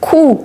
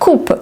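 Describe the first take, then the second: First: The final P is silent. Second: The final P is pronounced. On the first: The speaker calls it right. "mais on dit coup" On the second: The speaker calls it wrong. "on dit pas coupe"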